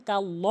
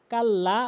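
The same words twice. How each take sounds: First: কাল্ল rounded to a heavy o; correct কাল্ল. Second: কাল্লা with a thin open a; mispronounced কাল্লা. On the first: Teacher labelling the right way, rounded কাল্ল. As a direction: say কাল্ল with a full rounded ending. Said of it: "সঠিক উচ্চারণ". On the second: Teacher labelling the wrong way, thin কাল্লা. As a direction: say কাল্লা with a light final a. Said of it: "ভুল উচ্চারণ". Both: Shown as a demonstration.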